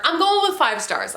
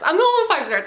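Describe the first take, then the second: First: Said in the usual way. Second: Excited declaration. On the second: Real, not acted. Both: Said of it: "I sound like a crazy person".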